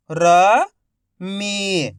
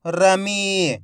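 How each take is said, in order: First: "रमी" split into र, pause, मी, each drawn out; syllable by syllable. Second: "रमी" joined as one word, long final ee; syllables blended. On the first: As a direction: sound out "रमी" slowly, र rising, मी falling. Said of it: "एक एक अक्षर का उच्चारण". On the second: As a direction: say "रमी" in one connected stretch. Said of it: "तो मिलके बन जाएगा". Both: Shown as a demonstration.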